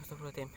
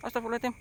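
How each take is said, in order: First: Hushed, soft muttered prayer; whispered prayer. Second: High, frantic blurted prayer; panicked prayer. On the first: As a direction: murmur it under your breath. Hushed prayer after fleeing. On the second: Panicked prayer after seeing fire. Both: Real, not acted.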